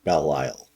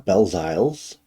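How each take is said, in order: First: The surname sounds like the two words 'Belle Isle'. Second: The surname is said with a 'z' sound, like 'Belziles'. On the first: The speaker calls it right. "the guy made it sound like Belle Isle" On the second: The speaker calls it wrong. "I'm probably pronouncing that wrong"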